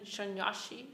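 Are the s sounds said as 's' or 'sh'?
sh. It uses Bengali-style 'sh' sounds.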